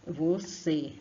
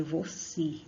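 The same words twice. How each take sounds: First: Você with closed final ê, ending vo-cê. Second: Você said as vocí, final e sounding like i; wrong reading. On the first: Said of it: "som fechado por causa do acento circunflexo". (você com ê fechado) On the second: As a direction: read você as if the end were vocí. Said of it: "o E no final de palavras tem som de I". (você lido como vocí) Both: Shown as a demonstration.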